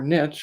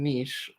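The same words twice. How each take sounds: First: It is said with an American pronunciation. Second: It is said with a non-American pronunciation.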